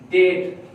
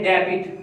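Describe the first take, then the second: First: डेट said as det, with no b sound; डेट as det, the b left out; correct pronunciation. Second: डेबिट said as de-bit, with the b sounded; डेबिट as de-bit, the mistaken reading; wrong pronunciation. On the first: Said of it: "आप ये word आप पढ़ते हैं डेट". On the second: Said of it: "डेबिट आप बोलते हैं". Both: Shown as a demonstration.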